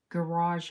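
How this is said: The word is said with an American accent. "We don't say garage here"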